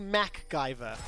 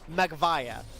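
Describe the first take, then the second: First: The name is said as MacGyver. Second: The name is said as Magvaya. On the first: This is the intended form of the name. The speaker calls it right. "it's supposed to be MacGyver" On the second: This is a child's mispronunciation of the name. The speaker calls it wrong. "because he couldn't pronounce it, it ends up being Magvaya"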